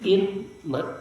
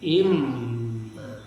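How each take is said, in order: First: The n sound is heard before the m. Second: The n merges into a doubled m sound. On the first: "Nun in" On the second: "seolah tidak ada nun, padahal ada nun, tapi tidak terbaca"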